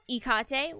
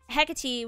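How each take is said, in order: First: The name is pronounced the Greek way. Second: The name is pronounced the Anglo way. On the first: "which is the Greek version" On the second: "which is the Anglo version"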